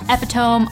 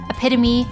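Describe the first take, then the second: First: It is pronounced the way it looks spelled. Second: It is pronounced in the standard established way. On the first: The speaker calls it wrong. "you might determine the pronunciation in your head" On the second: The speaker calls it right. "it's actually"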